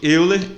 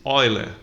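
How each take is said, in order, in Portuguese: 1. O nome se lê exatamente como se escreve. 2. O nome se pronuncia de forma diferente de como se escreve. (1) "Euler é um ex-jogador da seleção brasileira" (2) "mas pronuncia-se Euler"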